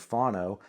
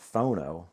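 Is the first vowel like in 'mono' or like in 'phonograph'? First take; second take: mono; phonograph. First: The first vowel sounds like the vowel in 'mono'. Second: The first vowel sounds like the vowel in 'phonograph'. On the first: "I got into the habit growing up when I saw mono, phono" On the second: "instead of saying a phono, phonograph"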